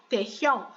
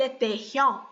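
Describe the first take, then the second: The two takes are said the same way.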